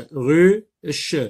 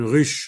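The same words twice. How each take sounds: First: "ruche" as ru, pause, che; louder "ruche" in two separate beats; split into syllables. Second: Said in the usual way. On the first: Shown as a demonstration. Teacher locating the ch sound, "ruche" pulled apart. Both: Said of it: "Dans la deuxième syllabe".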